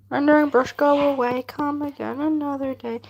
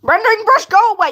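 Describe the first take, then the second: First: Chanted, light singsong rhyme in an everyday pitch; nursery-rhyme chant. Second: High, loud, playful scolding; mock shout. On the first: Pretend. Streamer tells rendering brush to go away, nursery-rhyme chant. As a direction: chant it like a children's rain rhyme. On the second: Streamer scolds the rendering brush, mock shout. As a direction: shoo it away in a raised voice.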